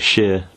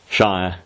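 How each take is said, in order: First: It is said as a short, weakened ending. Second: It is said in full, like the word alone. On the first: The speaker calls it right. "when I pronounce it at the end of a word, it's always shire" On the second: The speaker calls it wrong. "not shire"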